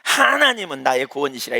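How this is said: The stress falls on the word 하나님은. There is no salvation other than God. "하나님을 강조하면"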